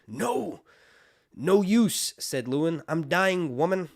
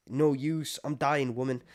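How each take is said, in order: First: Loud, higher mock-dramatic protest; the maester sasses the wildling woman, loud and wry; smartass dying maester. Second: Higher, louder wry retort; smartass maester. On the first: A smartass maester tells the wildling woman he's dying, loudly. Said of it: "Lewin's being a smartass". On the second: Retold or imitated. Retelling the maester's sarcastic reply to the wildling woman, wry and raised. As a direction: toss it off like a sarcastic old man. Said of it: "Lewin's being a smartass 'cause he goes".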